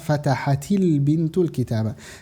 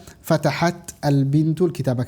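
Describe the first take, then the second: First: The t links into 'bintu' with an 'i' sound. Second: The t stops with no vowel before 'al bintu'. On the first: The speaker calls it right. "Maka di sini dibaca fatahatil bintul kitabah" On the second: The speaker calls it wrong. "jangan dibaca ... karena agak berat baca dua sukun"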